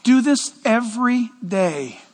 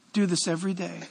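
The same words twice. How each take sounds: First: Slow, insistent command; emphatic instruction. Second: "Do this every day" said again much softer; quiet, intimate echo of the command; soft repeat. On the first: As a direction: DO leaned on, slow and deliberate. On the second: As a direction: drop to a near hush on the repeat. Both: Shown as a demonstration. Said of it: "Church, listen".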